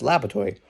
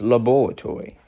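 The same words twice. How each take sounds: First: It is said with an American accent. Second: It is said with a British accent. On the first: "in America is laboratory" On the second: "in Britain it's laboratory"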